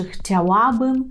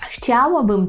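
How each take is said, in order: First: "chciałabym" slowly, ŁA stressed, rising; stress on middle syllable. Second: "chciałabym" with CHCIA stressed, falling; stress on first syllable. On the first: Teacher offering the alternative, stress on ŁA. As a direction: lean on ŁA in "chciałabym". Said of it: "чи". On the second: Teacher asking which viewers hear, stress on CHCIA. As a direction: hit CHCIA, let "łabym" fall. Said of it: "чуєте слово". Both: Shown as a demonstration.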